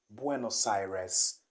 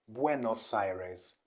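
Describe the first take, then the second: The two takes are said the same way.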